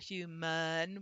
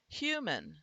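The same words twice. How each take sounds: First: A vowel is sounded before the final n. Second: The n forms the last syllable without a vowel. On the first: The speaker calls it wrong. "we're not pronouncing it as human" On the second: The speaker calls it right. "the n is syllabic"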